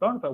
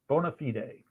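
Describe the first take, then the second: First: It is pronounced in an anglicized way. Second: It is pronounced in the original Latin way.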